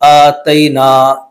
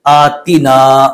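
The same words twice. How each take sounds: First: आतैना drawn out slowly with an "ai" vowel; wrong pronunciation. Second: आतीना drawn out with a long clear "ee"; correct pronunciation. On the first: Teacher demonstrates the mistaken आतैना slowly. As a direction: say आतैना stretched, with "tai". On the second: Teacher shows the correct आतीना slowly. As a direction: say आतीना slowly, stressing "tee". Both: Shown as a demonstration. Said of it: "जबकि लफ्ज़ क्या है".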